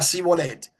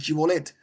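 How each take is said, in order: First: The word begins with a plain s sound. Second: The word begins with an sh sound. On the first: This form gave away the speaker's tribe. "sino que decía Sibolet" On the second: This is the form used as the test word. "no sabía decir Shibolet"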